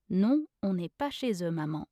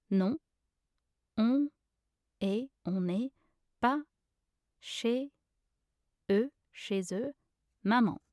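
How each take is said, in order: First: Said in the usual way. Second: Word by word. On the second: Shown as a demonstration. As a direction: teach the phrase piece by piece. Pronunciation guide, word-by-word take.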